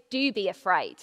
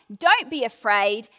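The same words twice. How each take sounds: First: "Do" stressed, dropped lower. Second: "Don't" leaned on and a bit louder; stress on Don't. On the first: Preacher contrasting two Bible sayings, stressing "Do". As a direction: lean on the "Do" lower down. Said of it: "and the other is". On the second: Preacher contrasting two Bible sayings, stressing "Don't". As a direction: push the "Don't". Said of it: "One is". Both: Shown as a demonstration.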